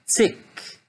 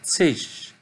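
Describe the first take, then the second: First: The word ends with a hard k sound. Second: The word ends with a softer g-like sound. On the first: This is how most Germans say it. "La plupart des Allemands le prononcent zick" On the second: This is how some other Germans say it. "mais d'autres le prononcent zig"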